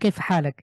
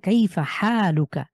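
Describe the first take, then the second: First: The vowel after h is short. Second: The vowel after h is drawn out.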